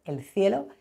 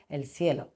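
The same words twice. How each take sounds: First: Said in the usual way. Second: "cielo" con S, "el sielo", más suave al cerrar; seseo. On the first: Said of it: "en lugar de decir cielo". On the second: Shown as a demonstration. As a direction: cambia la C de "cielo" por una ese. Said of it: "utilizando la S". ("el cielo" seseado, como "sielo")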